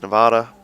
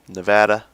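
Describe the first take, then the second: First: It is pronounced in a non-American way. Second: It is pronounced in an American way.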